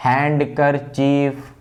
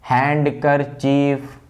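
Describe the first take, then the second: First: A 'd' sound is heard after 'han'. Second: A 'd' sound is heard after 'han'.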